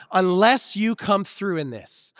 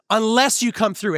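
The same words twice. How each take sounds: First: Slow, drawn-out plea to God; slow pleading. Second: Pressing repeat. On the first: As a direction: stretch out unless you come through in this. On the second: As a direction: push the plea a little harder. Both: Retold or imitated. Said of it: "when I think".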